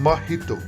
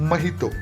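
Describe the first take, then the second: No difference in how they are said.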